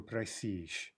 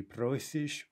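First: Просишь with reduced "o", stressed "и"; end stress on просишь. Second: Просишь with a full stressed "o"; stem stress on просишь. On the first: Teacher asking which stress is right, просишь stressed on last syllable. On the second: Teacher asking which stress is right, просишь stressed on first syllable. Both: Shown as a demonstration. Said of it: "same problem".

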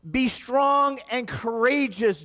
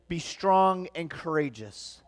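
First: Preaching. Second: Said in the usual way. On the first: Acted. Preached quote of the Lord.

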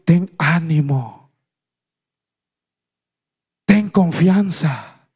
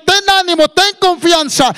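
First: Slow, measured words of reassurance; slow encouragement. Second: High, loud rallying cry; preached exhortation. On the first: People encourage the blind man Jesus called, slow reassurance. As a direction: draw each word out, unhurried. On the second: Preacher relays the call to the blind man, loud exhortation. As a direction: proclaim it high at full preaching force. Same encouragement, now proclaimed. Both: Acted.

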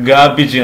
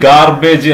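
First: ഗാബിജ് as "GAA-bij", silent r; no r, short "-ij" in ഗാബിജ്; correct pronunciation. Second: ഗാർബേജ് as "gaar-BAYJ", r sounded; sounded r and long "-ayj" in ഗാർബേജ്; common mispronunciation. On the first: Teacher modelling for learners, ഗാബിജ് as "GAA-bij". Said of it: "അതിൻ്റെ ഉച്ചാരണം". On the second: Teacher showing the usual error, ഗാർബേജ് as "gaar-BAYJ". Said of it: "എന്നാണ് പറയാറുള്ളത്". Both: Shown as a demonstration.

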